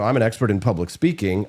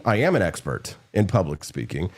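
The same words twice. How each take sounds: First: Said in the usual way. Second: "am" spelled out and pressed, with a rise on "am"; "I am" said in full with weight on "am"; stress on AM. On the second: Shown as a demonstration. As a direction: lean into "am" to insist.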